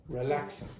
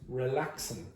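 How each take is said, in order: No difference in how they are said.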